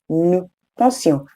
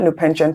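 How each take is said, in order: First: Pensions is said with French vowels and sounds. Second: Pensions sounds like the English word pension. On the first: The speaker calls it right. "it's new pension" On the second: The speaker calls it wrong. "It's not new pension. Pension is the English language"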